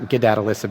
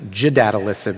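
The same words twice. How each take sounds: First: It begins with a hard g sound. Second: It begins with a j sound, like Jedi. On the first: The speaker calls it wrong. "It's not" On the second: The speaker calls it right. "like Jedi"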